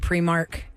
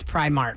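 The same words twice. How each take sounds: First: The first syllable sounds like 'pree'. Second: The first syllable sounds like 'pry'. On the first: The speaker calls it wrong. "people don't know how to say it. They say Primark" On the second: The speaker calls it right. "It's Primark because it's spelled P R I Mark"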